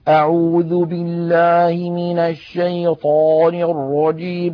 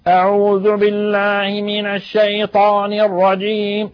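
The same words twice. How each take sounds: First: It sounds chewed, as if the mouth is full. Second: It sounds pressed hard from deep in the throat. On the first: "كأن في فمه لقمة وهو يتكلم" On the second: "يضغط على أقصى حلقه"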